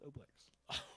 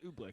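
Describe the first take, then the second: First: The first vowel is an oh sound. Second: The first vowel is a long oo sound. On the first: The speaker calls it right. "but it is Oblex" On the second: The speaker calls it wrong. "I've always said Ooblex"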